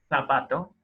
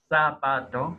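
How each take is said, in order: First: The z is a lisped th sound. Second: The z is a plain s sound. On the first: This is not how the local variety says it. "Nosotros no decimos" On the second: This is how the local variety says it. "pero no como una interdental"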